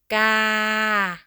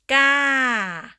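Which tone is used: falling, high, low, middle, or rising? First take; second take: middle; falling. First: The pitch stays level in the middle. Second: The pitch falls across the syllable. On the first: "Ga is a middle tone" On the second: "Falling tone"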